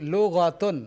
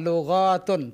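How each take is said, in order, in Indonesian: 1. Vokal setelah bunyi gh tetap pendek. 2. Vokal setelah bunyi gh dipanjangkan. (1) "Ghainnya jangan dipanjangkan" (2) "Bukan lughatun"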